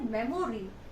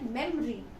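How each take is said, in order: First: The middle vowel is clearly pronounced. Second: The middle vowel is dropped. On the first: The speaker calls it wrong. "you will not say memory" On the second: The speaker calls it right. "O is eaten up"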